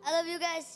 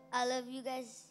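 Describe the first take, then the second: First: It is said loudly. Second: It is said softly.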